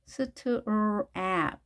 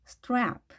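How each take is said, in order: First: "strap" split into s, t, r, ap; sounded out. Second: Said in the usual way. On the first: Shown as a demonstration. Teacher breaks strap into sounds for learners, sounded out piece by piece.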